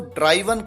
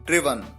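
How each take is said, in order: First: The first vowel sounds like 'eye'. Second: The first vowel sounds like 'bit'. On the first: The speaker calls it wrong. "ये गलत है" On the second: The speaker calls it right. "इसका correct pronunciation है ड्रिवन"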